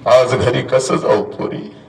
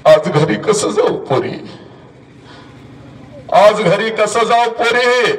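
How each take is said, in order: First: Slow, sunk-down, defeated repeat; low broken plea. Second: Higher, slow crying-out of the line; high wailing plea. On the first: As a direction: let the voice fall away in grief. (खालच्या आवाजात हताश विनवणी) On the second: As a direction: wail it out as the mother breaking. (उंच, संथ आक्रोश) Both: Retold or imitated. Mother's lament repeated.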